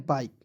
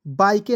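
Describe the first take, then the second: First: बाइक ending on K, E silent; correct pronunciation. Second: बाइके with final E sounded; wrong pronunciation. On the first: Teacher correcting students' reading, silent-E बाइक. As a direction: stop बाइक on the K. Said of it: "इसे पढ़ना है बाइक". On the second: Teacher warning students off, misread बाइके with sounded E. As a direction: add an "ay" ending, बाइके. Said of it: "बाइके नहीं पढ़ना". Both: Shown as a demonstration.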